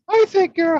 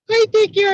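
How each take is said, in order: First: It is said in a high Mickey Mouse voice. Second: It is said in an even squeakier Minnie voice. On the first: "I want you to use the voice of Mickey Mouse" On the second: "in the voice of Minnie Mouse. ... kind of the same, but squeakier"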